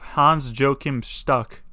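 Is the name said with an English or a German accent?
English. The name is said with a plain English accent.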